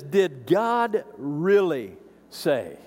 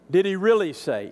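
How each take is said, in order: First: Very slow, sneering "Did God really say"; slithering snake voice; sly serpent tone. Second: Pushy "really"; mock incredulous. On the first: Retold or imitated. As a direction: draw it out like a tempter. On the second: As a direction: press the doubt. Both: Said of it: "I want you to notice the tone here".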